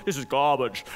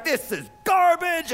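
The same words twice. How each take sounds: First: Mock English accent, low and understated. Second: Disgusted chef. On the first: Imitating a TV chef tasting the food, English accent. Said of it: "he says it with the English accent". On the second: Retold or imitated. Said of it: "he tastes the food and he's like".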